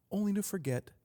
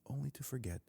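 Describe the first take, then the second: First: High-pitched first statement; raised lament. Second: Much softer, fading repeat; hushed echo. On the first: Podcaster on babies losing what they knew, raised lament. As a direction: lift "only to forget" high, at usual volume. Repeats the phrase, then softer. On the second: Podcaster on babies losing what they knew, hushed echo. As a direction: let "only to forget" drop almost away. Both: Real, not acted.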